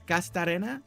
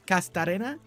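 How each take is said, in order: First: The name is said with a Spanish accent. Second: The same.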